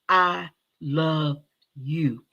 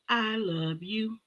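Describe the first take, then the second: First: It is said in her normal voice. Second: It is said in a put-on voice.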